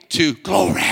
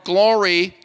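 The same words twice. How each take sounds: First: GLORY roared as glo-RAY in preacher accent. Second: Said in the usual way. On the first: Shown as a demonstration. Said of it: "use a preacher accent". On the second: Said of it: "moving from glory to glory".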